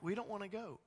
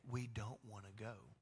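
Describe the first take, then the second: First: Put-on higher, childish whine; mock-whiny Israelites refusing God; whiny refusal. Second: Low, soft, sad echo of the refusal; God softly recalling the people's refusal; quiet quoted refusal. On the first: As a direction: sulk like a kid refusing. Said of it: "And they're like". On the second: Retold or imitated. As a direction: let it fall quietly, disappointed. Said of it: "And you said".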